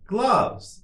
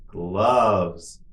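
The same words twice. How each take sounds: First: Much higher, shorter take; quicker model. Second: Drawn-out word for learners; slow model. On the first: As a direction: say it quickly on a raised pitch. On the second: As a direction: say it slowly and evenly for repetition. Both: Shown as a demonstration. Teacher models word for repetition.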